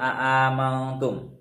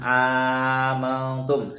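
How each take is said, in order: First: Two separate glottal stops open the word. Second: One glottal stop followed by a long vowel. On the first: "dengan membaca tahqiq dua hamzahnya" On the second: "Jadi bacanya langsung amantum"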